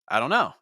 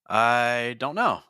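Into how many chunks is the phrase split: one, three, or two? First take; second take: one; two. First: It is said as one unbroken chunk. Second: It is split into two chunks by a pause. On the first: "that is one thought group" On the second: "now I have two thought groups"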